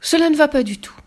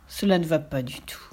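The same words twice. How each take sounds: First: Higher, louder decisive declaration; loud firm refusal. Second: Soft, low, whispered verdict; whispered dismay. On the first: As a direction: put your foot down. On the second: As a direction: breathe it out in disappointment. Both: A narrator's reading.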